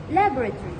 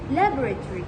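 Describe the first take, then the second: Both takes have the same delivery.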